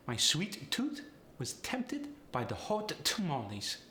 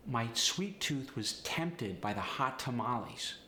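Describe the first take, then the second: First: Polish accent with overemphasized T; higher-pitched Polish accent, hit every T hard. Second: Said in the usual way. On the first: Shown as a demonstration. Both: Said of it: "really overemphasize the T".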